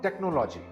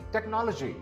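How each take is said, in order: First: The stress is not on the second syllable. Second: The stress is on the second syllable. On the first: The speaker calls it wrong. "This word is not technology" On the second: The speaker calls it right. "the second syllable is stressed"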